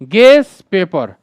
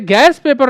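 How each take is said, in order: First: The first word sounds like 'guess'. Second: The first word sounds like 'gas'. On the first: The speaker calls it right. "Real pronunciation होता है" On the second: The speaker calls it wrong. "इसे गैस paper नहीं कहते हैं"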